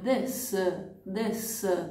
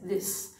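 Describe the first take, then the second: First: A short vowel is added after the final S. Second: The word ends cleanly on the S. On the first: The speaker calls it wrong. "Noi tendiamo ad aggiungere qualche suono, una vocale, diciamo così, alla fine" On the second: The speaker calls it right. "non c'è una vocale alla fine, finiamo il suono, la parola con la S"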